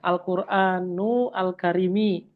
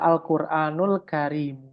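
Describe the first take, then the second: First: The words are separated and Karimi ends in i. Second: The words are linked and Karim ends without i. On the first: The speaker calls it wrong. "Jawabannya salah" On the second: The speaker calls it right. "Yang benar adalah Al-Qur'anul Karim"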